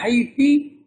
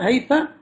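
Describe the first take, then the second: First: The word ends with the vowel i. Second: The word ends with the vowel a. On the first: Other Arabs said it this way in their dialect. "Others pronounced it with the kasra" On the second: Some Arabs said it this way in their dialect. "they pronounced it with fatha"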